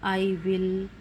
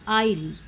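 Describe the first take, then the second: First: Both words are said in full, two syllables. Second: The words are contracted into a single syllable.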